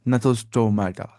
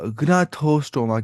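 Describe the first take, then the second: First: Gnathostomata said as nathostomata, g silent, slowly. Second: Gnathostoma with the g said, slowly; g sounded, wrong way. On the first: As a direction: drop the g in Gnathostomata. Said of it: "इसको जी silent ही पढ़ना होता है". (Gnathostomata में g silent, नाथोस्टोमेटा) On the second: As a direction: say gnathostoma with a hard g at the start. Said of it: "ये gnathostoma नहीं पढ़ना". (gnathostoma में g बोलकर, गलत उच्चारण) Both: Shown as a demonstration.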